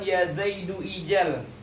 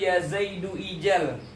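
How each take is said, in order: First: A separate i vowel is sounded before jal. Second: A separate i vowel is sounded before jal.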